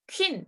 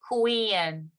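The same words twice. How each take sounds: First: The opening qu is short and clipped. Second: The opening qu is stretched like k-oo. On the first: The speaker calls it wrong. "queen 이게 아니고" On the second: The speaker calls it right. "이렇게 늘린다고 생각하시면 돼요"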